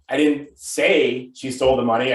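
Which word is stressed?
say. The word 'say' carries the main stress. It was implied rather than said outright. "I could be implying that she stole it"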